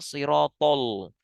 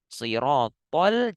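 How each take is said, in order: First: The L sound is thick and heavy. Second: The L sound is thin and light. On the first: The speaker calls it wrong. "jangan siratol" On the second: The speaker calls it right. "pastikan tetap tipis lam"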